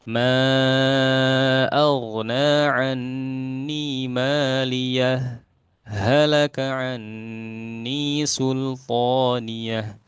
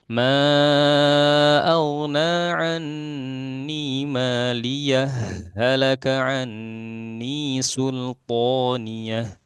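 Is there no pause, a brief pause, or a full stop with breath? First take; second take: brief pause; no pause. First: A brief pause without breath separates the phrases. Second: The two phrases are joined with no pause.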